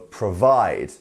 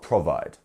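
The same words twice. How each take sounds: First: The stress is on the second syllable. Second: The stress is on the first syllable. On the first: The speaker calls it right. "can you see our little apostrophe here? And then we have the end" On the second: The speaker calls it wrong. "not provide"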